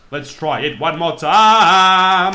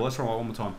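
First: "Let's try it one more time" stretched slow and louder; slow loud drawl. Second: Said in the usual way. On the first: Real, not acted. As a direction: drag out each word, pumped up. Drawn out loud repeat.

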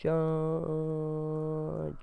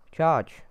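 First: Drawn-out battle cry. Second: Battle order shout. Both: Pretend. Cha-, oh, right.

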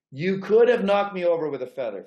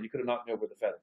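First: Said in the usual way. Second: Softer, lower, letting "knocked" land; quieter emphatic repeat. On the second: Real, not acted. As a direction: drop the voice to stress the shock.

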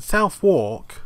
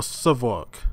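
First: Southwark said as "South-wark", both parts full; Southwark with a full "South" at the front; Southwark as spelt. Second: Southwark said as "Suthuk", short first vowel; Southwark squeezed into a local-style "Suthuk"; Southwark run together. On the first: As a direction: say Southwark like "south" plus "walk". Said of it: "How do you say it?". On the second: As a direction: say Southwark with "South" reduced to "Suth". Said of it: "people in the game say it differently". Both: Shown as a demonstration.

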